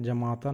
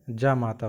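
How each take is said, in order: First: जमाता with a short first vowel, ja-maa-taa; wrong form said. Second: जामाता with a long first vowel, jaa-maa-taa; correct form said. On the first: Teacher showing the wrong spelling जमाता, short opening vowel. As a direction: say जमाता quickly, short a at the start. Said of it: "जमाता नहीं". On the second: Teacher giving the right spelling जामाता, long opening vowel. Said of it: "जामाता होता है". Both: Shown as a demonstration.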